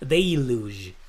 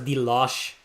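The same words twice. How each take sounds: First: It is said not sounding like the word deluxe. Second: It is said sounding like the word deluxe. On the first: "No, it's de deluge" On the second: "I always pronounce it as deluge, like deluxe"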